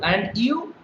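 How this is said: The voice rises at the end. The speaker calls it right. "this is how you've got to maintain the intonation pattern"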